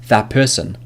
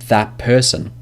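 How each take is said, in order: First: The words run together, the first ending assimilated. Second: The same.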